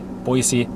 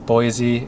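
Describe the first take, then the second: First: The middle consonant is a hissing s sound. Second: The middle consonant is a buzzing z sound. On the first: The speaker calls it right. "Locals say it with an S, not a Z" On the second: The speaker calls it wrong. "I'm sorry"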